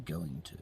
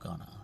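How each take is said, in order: First: It is said in full as two words. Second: It is reduced to one short word. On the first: It sounds more proper. The speaker calls it right. "say going to" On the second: It sounds less proper. The speaker calls it wrong. "not gonna"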